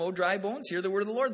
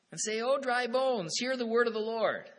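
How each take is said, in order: First: Louder, full-voiced proclamation; forceful preaching. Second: Preaching loudly to the dry bones; loud proclamation. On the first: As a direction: thunder it out to the bones. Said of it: "and the Lord says, he says to them". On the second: Retold or imitated. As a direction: call it out like a prophet to the valley. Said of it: "He says to me, "Prophesy to these bones. Preach to 'em".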